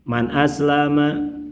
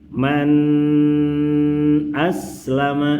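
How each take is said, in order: First: The n sound is very short and rushed. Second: The n sound is drawn out very long. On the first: "Terlalu cepat" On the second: "terlalu lama"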